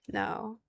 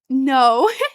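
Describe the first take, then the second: First: It sounds flat, dry and uninterested. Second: It sounds excited, smiling and engaged. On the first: The speaker is not interested in the person. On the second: The speaker is interested in the person.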